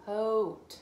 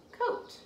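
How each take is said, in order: First: "coat" sounded out slowly; slow blend. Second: Said in the usual way. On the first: Shown as a demonstration. Teacher blending "coat" for the child. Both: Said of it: "I found".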